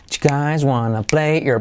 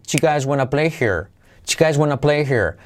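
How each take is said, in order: First: "here" said as ear, linked to "play"; dropped H. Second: "here" with an audible breathed H; linked choo guys wanna play, then clear H on "here". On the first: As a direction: choo guys wanna play-ear, no H in "here". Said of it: "los nativos noventa por ciento de las veces la omiten". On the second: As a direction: sound the H in "here" after "play". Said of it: "Puedes hacer la H". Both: Shown as a demonstration.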